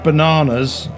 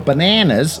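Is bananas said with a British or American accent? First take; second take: British; American. First: Said with a British accent, broad middle vowel. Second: Said with an American accent, flatter middle vowel.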